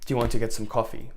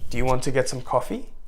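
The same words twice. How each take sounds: First: The pitch falls at the end. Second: The pitch rises at the end. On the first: The speaker sounds confident and grounded. The speaker calls it right. "So you become more expansive as you are" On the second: The speaker sounds needy and anxious. The speaker calls it wrong.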